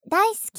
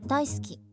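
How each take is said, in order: First: It is said in a louder, bright streaming voice. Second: It is said in a plain, everyday voice. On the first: "実況モードの声で" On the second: "これでいい？"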